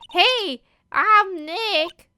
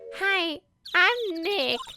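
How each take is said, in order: First: It is said loudly. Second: It is said quietly.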